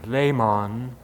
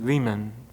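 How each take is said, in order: First: The name is pronounced the German way. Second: The name is pronounced the American way. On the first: "the German" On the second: "which we would s- be more comfortable with"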